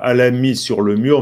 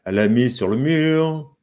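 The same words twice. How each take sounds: First: "elle a" said as separate syllables, el-le a; careful over-syllabified "elle a mis"; no elision. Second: "elle a" run together as ell'a, mute e dropped; natural elided "elle a mis"; with elision. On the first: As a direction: sound the e of "elle" before "a". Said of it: "elle dit pas". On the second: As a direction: glide "elle" straight into "a". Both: Shown as a demonstration.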